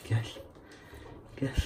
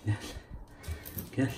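No difference in how they are said.

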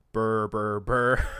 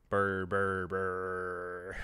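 First: Loud spoken gunfire noise; mock gunfire burrs. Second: Drawn-out burrs on one low note; mock gunfire burrs. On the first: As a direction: blurt out rattling burrs, loudly. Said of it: "reaction was just to say burr". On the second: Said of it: "just to say burr".

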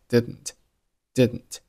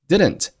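First: "didn't" with the middle d held back, straight into n; unreleased D. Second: Said in the usual way. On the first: Shown as a demonstration. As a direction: swallow the second d in "didn't". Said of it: "字母D同样失去爆破".

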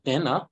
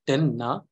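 First: "dena" run together with a subtle n; suppressed emphasis. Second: "denna" with a heavy held n and a break before na; over-emphasized sound. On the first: Teacher shows the natural flow, lightly stressed. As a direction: glide through "dena" without a pause. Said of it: "I have suppressed the emphasis". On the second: Teacher shows what too much emphasis does, over-emphasized. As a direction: split "denna" with an unnatural pause. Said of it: "there is an unnatural pause". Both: Shown as a demonstration.

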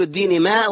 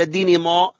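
First: ماء with a light front aa; thin mim. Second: ماء as heavy "maw"; thick mim. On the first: Teacher quizzes student on everyday word, light ماء. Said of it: "إلا أنت بتقول". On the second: Teacher offers wrong alternative, heavy back-vowelled ماء. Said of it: "ولا". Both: Shown as a demonstration.

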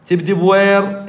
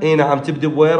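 First: Asking tone. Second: Said in the usual way. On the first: Shown as a demonstration.

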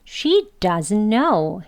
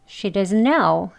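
First: "She doesn't know" slowly, "doesn't" stressed; strong emphatic form. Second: "She doesn't know" with "doesn't" passed over lightly; weak form. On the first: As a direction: open jaw, full vowel in "doesn't". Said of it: "강하게 또 강조되어서". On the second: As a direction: schwa in "doesn't," unstressed. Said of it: "휙 조금 지나가듯 발음하겠습니다". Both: Shown as a demonstration.

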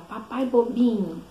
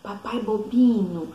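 First: Put-on slow, higher childlike tease; toddler copying Peppa. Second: Peppa's teasing. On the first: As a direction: tease daddy like a little cartoon pig. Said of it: "igualzinho, imitando". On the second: Retold or imitated. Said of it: "a Peppa fala assim pro papai dela".

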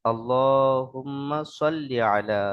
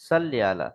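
First: Slow "সাল্লি" with a heavy, emphatic S; correct sad sound. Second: "সাল্লি" with a thin, light S; wrong sin sound. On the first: Teacher correcting the mistake, slow "সাল্লি" with heavy sad S. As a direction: draw it out, "সাল্লি" with thick Arabic sad. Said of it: "সদ দিয়ে উচ্চারণ করতে হবে". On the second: Teacher showing a common mistake, "সাল্লি" with thin sin S. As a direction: say "সাল্লি" with a plain sin instead of heavy sad. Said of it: "সিন থেকে". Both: Shown as a demonstration.

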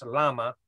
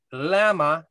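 First: "lama" with an open ah, LAH-muh; Hebrew LAMA. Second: "lama" with the flat a of "lamb"; LAMA with a short a. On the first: Teacher giving today's Hebrew word, "lama" as LAH-muh. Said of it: "at least in Hebrew today". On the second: Bible teacher glossing the cry word by word, "lama" as LAM-uh. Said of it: "it's actually L A M A". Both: Shown as a demonstration.

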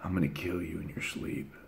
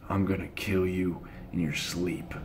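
First: Very hushed, low sinister murmur; devilish threat. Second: Low, much softer sinister murmur; a menacing little brother's threat, hushed low; devilish threat. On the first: Brother threatening him again: hushed devilish threat. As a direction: breathe the threat low and menacing. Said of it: "he was like". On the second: Brother threatening him in bed: hushed devilish threat. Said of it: "devilish look". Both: Retold or imitated.

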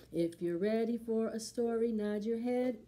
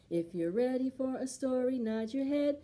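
Both takes have the same delivery.

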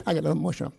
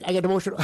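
First: Laughing through the words, a bit quicker; a choked-up chuckle at his own emotion; embarrassed laugh while admitting emotion; emotional laugh. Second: Said in the usual way. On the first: Real, not acted.

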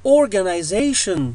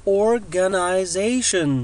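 First: Said in the usual way. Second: "organization" slowly, syllable by syllable; very slow teacher's model of "organization"; slow breakdown. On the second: Shown as a demonstration. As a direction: break "organization" into drawn-out parts for learners. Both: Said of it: "جميعها تلفظ ك".

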